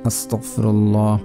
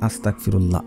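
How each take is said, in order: First: The word is pronounced carefully and fully. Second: The word is pronounced carelessly and inexactly. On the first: The speaker calls it right. "আপনারা এইভাবে পড়বেন" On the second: The speaker calls it wrong. "অনেকে পড়ে ... এখানে উচ্চারণ ভুল হচ্ছে"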